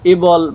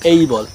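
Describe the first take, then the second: First: The first vowel sounds like 'eh'. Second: The first vowel sounds like 'ay'. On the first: The speaker calls it wrong. "এবল বা এরকমের কিছু তোমরা বলবে না" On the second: The speaker calls it right. "তোমরা বলবে এই বল"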